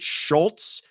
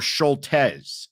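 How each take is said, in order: First: The name is said as one syllable. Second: The name is said as two syllables. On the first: This is the speaker's own way of saying it. "I pronounce it Schultz" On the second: Others say it should be said this way. "as I'm being told?"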